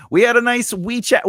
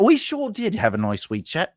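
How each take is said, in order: First: Said in the usual way. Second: Put-on a stab at an English accent; poor English accent. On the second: Host echoing a viewer, poor English accent. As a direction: put on a shaky attempt at English. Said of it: "poor English accent".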